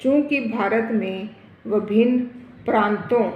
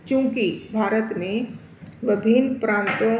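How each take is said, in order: Both takes have the same delivery.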